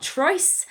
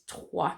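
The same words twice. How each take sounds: First: "trois" read the English way from the spelling, ending in an s; "trois" said as an English learner would read it off the page; "trois" mispronounced like an English word, the s sounded; wrong English reading. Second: "trois" said the French way as "trwa" with a silent s; "trois" as in French, with a wa sound and no final s; "trois" pronounced properly as "trwa"; correct French. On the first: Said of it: "it's not trois, as lots of people, uh, pronounce when they see it written down". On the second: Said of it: "we learn, don't we, that it is trois".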